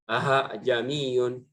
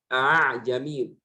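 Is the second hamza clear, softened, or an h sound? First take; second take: h sound; softened. First: The second glottal stop becomes an h sound. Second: The second glottal stop is softened toward a vowel. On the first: The speaker calls it wrong. "menggantikan hamzah yang kedua menjadi ha" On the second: The speaker calls it right. "A'jamiyun dibaca dengan a'jamiyun"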